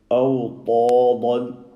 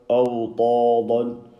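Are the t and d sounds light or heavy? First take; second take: heavy; heavy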